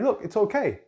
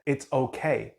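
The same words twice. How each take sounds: First: Higher, brushing-off "Look, it's okay"; mock parent telling the child to stop fussing; lightly hammed impatient parent; dismissive it's okay. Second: Put-on tender parent soothing a crying toddler; comforting it's okay. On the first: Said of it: "Do we just". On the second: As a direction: reassure with presence, not words. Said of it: "we're doing it more energetically".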